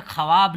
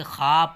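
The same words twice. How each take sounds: First: ख्वाब with वाव sounded, "kha-waab"; wrong spelling pronunciation. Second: ख्वाब as one long syllable, "khaab"; correct silent-wao reading. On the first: Teacher warning readers off a misreading, ख्वाब said "kha-waab". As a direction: say ख्वाब in two syllables, voicing the w. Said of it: "उसी तरह से ख्वाब नहीं". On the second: Teacher correcting the class's reading, ख्वाब said "khaab", w silent. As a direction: say ख्वाब with no w sound at all. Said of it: "बल्कि ख्वाब पढ़ेंगे". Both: Shown as a demonstration.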